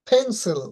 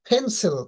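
The two takes are said the same way.

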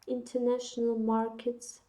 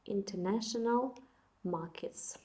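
First: It is said with an American accent. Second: It is said with a British accent. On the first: "американська" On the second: "британська"

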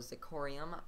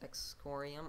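First: The word begins with a z sound. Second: The word begins with an eks sound.

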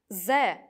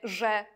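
First: The word starts with a plain 'z' sound. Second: The word starts with a 'zh' sound. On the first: This is the dialect form. "Czepiec mówi przecież ze" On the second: This is the standard form. "a nie że"

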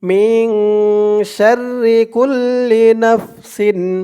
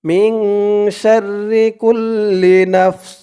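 First: The last word ends with an -in sound. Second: The last word ends sharply on an s. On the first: The recitation continues without stopping. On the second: The recitation stops at this word.

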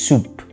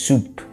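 No difference in how they are said.

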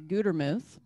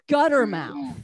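First: The name ends with a short 'muth' sound. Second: The name ends with the word 'mouth'. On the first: The speaker calls it right. "My last name is actually Gutermuth" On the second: The speaker calls it wrong. "a lot of people mispronounce it"

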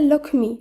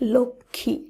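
First: An m sound follows the ksh cluster. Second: No m sound; the cluster sounds slightly nasal. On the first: The speaker calls it wrong. "একইভাবে লক্ষ্মী নয়" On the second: The speaker calls it right. "শব্দটি শুদ্ধ উচ্চারণ হবে লক্ষ্মী"

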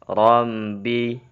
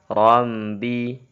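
The two takes are said the same way.

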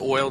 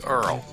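First: The word sounds like standard 'oil'. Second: The word sounds like 'Earl'. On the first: "whenever they say oil" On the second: "they say Earl"

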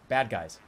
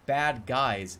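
First: The stress falls on the word bad. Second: The stress falls on the word guys. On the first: It is a fixed term for the enemies in a game. The speaker calls it right. "it's bad guys. It's its own term" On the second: It is an ordinary description of some men who are bad. The speaker calls it wrong. "It's not bad guys"

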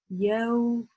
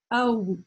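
First: The sound is smooth, soft and gentle. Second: The sound is pressed out hard and intensely. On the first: The speaker calls it right. "она более плавная, мягкая, нежная" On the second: The speaker calls it wrong. "Если нажать сильно, то получается такой звук"

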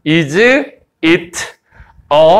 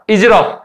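First: Each word is said separately and carefully. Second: The words run together quickly as one unit. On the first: The speaker calls it wrong. "뭘 또박또박 발음하면" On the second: The speaker calls it right. "이렇게 발음 돼"

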